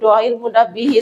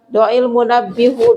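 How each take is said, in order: First: The last word ends with an 'i' vowel. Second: The last word ends with a 'u' vowel. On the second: "kita ganti domah salah"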